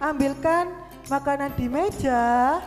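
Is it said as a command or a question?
question. It is said with a questioning tune. It asks whether someone will fetch the food. "Itu kan beda dengan jika tanda tanya"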